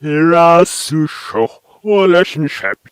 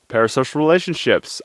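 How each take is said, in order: First: Loud, slow, strangely swelling syllables; "hirasusho, relationship" stretched out, as if from reversed tape; reversed backwards speech. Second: Said in the usual way. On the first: Shown as a demonstration. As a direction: sound like backwards speech flipped forwards. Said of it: "Reverse that". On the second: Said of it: "I thought I would say".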